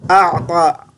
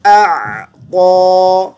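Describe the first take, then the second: First: अअता with the ain sound wrongly blended in; wrong pronunciation. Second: अअता drawn out slowly, hamza then ain, heavy ता; correct pronunciation. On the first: Teacher demonstrates the wrong अअता to the student. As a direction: say अअता as the mistake to avoid. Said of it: "अअता भी नहीं पढ़ना". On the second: Teacher models the right अअता, slow and drawn out. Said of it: "ता को मोटी आवाज़ से पढ़ेंगे". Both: Shown as a demonstration.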